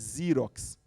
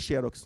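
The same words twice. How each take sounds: First: The name is said the usual international way. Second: The name is said the usual Brazilian way. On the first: "no resto do mundo é Xerox" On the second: "a pronúncia no Brasil é Xerox"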